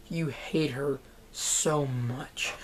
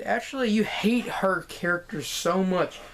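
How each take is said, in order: First: Softer, slow, hushed whisper. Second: Said in the usual way. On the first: Real, not acted. Vlogger telling viewers how hateful the character is, slow whisper. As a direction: lean in and whisper it slowly. Repeats line, then whispers it.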